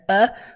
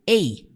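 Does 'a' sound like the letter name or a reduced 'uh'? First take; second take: reduced uh; letter name. First: The vowel is a short, reduced 'uh' sound. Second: The vowel sounds like the letter name 'ay'.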